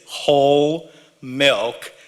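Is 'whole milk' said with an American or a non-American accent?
American. It has an American accent, clearly 'whole milk'. The listener understands the intended word. The speaker calls it right. "I had to say whole milk to be understood"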